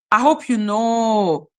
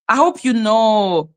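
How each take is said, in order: Both takes have the same delivery.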